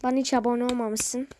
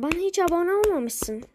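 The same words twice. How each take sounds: First: Said in the usual way. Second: "olmamışsın" ends in a higher, sharp fall; higher-pitched "olmamışsın". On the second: Real, not acted. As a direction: say "Bana hiç abone olmamışsın" in a higher voice, as mock hurt. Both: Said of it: "Ama aferin yani".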